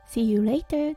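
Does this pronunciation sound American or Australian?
Australian. The final R in later is dropped.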